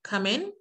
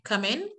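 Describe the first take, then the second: The two takes are said the same way.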